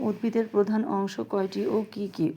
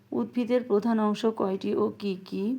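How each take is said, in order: No difference in how they are said.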